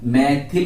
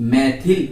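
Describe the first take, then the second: No difference in how they are said.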